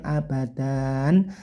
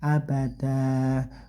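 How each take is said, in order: First: The word ends with an n sound. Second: The word ends on a lengthened open vowel. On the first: The speaker calls it wrong. "nggak pakai n lagi ya, bukan abadan" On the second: The speaker calls it right. "tapi abada"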